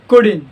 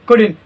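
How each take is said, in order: First: The middle syllable is fully pronounced. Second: The same.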